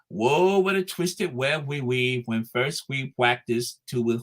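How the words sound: It is said in an Elmer Fudd voice.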